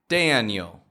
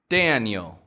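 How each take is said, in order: The two takes are said the same way.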